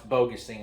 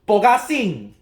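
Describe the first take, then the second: First: The name is said in an English style. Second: The name is said in a Chinese style. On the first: "It's how you pronounce Bogusing, I'm guessing" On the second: "in the Huaqiang Bei way. That's what we uh, uh, Chinese folks pronounce it"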